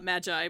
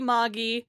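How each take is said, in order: First: The word is pronounced like the English word. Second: The word is pronounced the Japanese way. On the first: This is an acceptable form for Western speakers. "for Western speakers... okay to say uh, Magi because that is a real word in English" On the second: This is the technically correct form. "Technically Magi"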